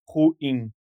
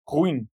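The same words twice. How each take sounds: First: It is said as two syllables, a hiatus. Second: It is said as one gliding syllable, gaúcho-style.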